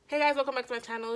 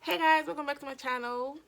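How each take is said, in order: First: It is said with calm, normal energy. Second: It is said with loud, exaggerated energy.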